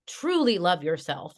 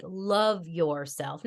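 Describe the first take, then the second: First: Said in the usual way. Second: "love" drawn out slowly; slow, deliberate weight on "love"; stress on love. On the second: Shown as a demonstration. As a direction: lean long and slow on "love". Slows down to stress it.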